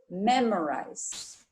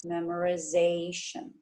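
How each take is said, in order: First: Memorize with the stress on MEM, slow and clear; stress on first syllable. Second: Memorization with the stress moved onto ZA; stress on the suffix. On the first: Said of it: "The stress is on the first syllable". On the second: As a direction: say memorization stressing ZA, not MEM. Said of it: "the first syllable of the suffix". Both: Shown as a demonstration.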